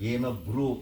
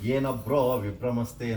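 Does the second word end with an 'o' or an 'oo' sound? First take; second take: oo; o. First: The second word ends with an 'oo' sound. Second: The second word ends with an 'o' sound. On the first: The speaker calls it right. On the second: The speaker calls it wrong. "ಏನ ಬ್ರೋ ಅನ್ನುವಂಥ ಶಬ್ದ ಇಲ್ಲವೇ"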